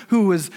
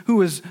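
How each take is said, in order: Both takes have the same delivery.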